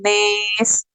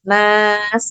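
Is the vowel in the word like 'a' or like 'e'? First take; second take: e; a. First: The vowel is tilted toward 'e'. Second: The vowel is a plain open 'a'. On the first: "Kalau ini nes" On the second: "Kalau kita kan lurus nas gitu"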